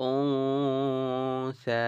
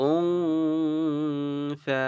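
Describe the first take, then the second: First: উনসা slow with the উন hummed through the nose; nasal ghunnah demo. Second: উনসা with a long nasal hum on the উন, higher, very slow; nasal ghunnah demo. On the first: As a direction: hold the nasal উন, then সা. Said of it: "আমরা এখানে গুণনা করছি". (উনসা নাকের গুন্নাহ দিয়ে) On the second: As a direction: stretch the উন through the nose before সা. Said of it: "এইভাবে করে". (উনসা তে লম্বা গুন্নাহ) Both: Shown as a demonstration.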